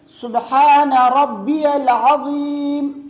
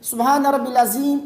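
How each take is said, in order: First: The middle word has a 'ya' sound: 'rabbiyal'. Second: The middle word is said short, as 'rabbil'. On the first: The speaker calls it right. "बल्कि ये सुबहान रब्बियल अज़ीम" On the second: The speaker calls it wrong. "वो गलती ये है कि वो रुकू की तस्बीह यूँ पढ़ते हैं"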